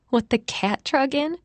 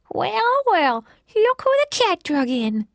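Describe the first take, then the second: First: Said in the usual way. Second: Put-on high, lisping old lady voice; lisping old woman. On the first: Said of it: "Charlotte looked at Kara and whispered". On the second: A narrator's reading. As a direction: lisp it out like a nosy old woman. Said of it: "she said with a lisp".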